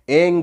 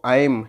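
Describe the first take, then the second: First: The word ends with an ng sound. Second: The word ends with an m sound. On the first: "अंगा का sound लगाते हैं" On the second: "माँ माँ का sound बोलते हैं"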